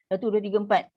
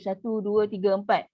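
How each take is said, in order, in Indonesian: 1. Keempat hitungan diucapkan dengan cepat. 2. Keempat hitungan diucapkan dengan kecepatan sedang. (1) "empat harakat untuk hadar lagi cepat" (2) "kalau tadwir"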